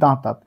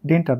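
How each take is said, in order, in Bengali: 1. শব্দটি 'daantaat' হিসেবে উচ্চারিত হয়। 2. শব্দটি 'dentar' হিসেবে উচ্চারিত হয়। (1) "এর উচ্চারণটা হবে দাঁতাত" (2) "ডেন্টার নয়"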